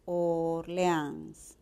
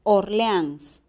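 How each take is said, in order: First: "Orleans" slow and softer, OR-LE-ANS; syllable by syllable. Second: Said in the usual way. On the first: Shown as a demonstration.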